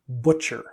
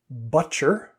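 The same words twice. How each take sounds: First: The first vowel is rounded with rounded lips. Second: The first vowel is flat and unrounded. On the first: The speaker calls it right. "actually it's a much rounder sound" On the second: The speaker calls it wrong. "The pronunciation that I heard was butcher"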